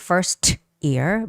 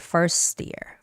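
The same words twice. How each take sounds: First: The T in 'first' is fully and crisply pronounced. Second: The T in 'first' is softened and barely heard. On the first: The speaker calls it wrong. "you don't actually say first ear" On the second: The speaker calls it right. "but you say first ear, You sort of soften that T sound"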